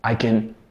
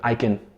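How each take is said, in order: First: The words are run together and reduced. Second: The words are run together and reduced.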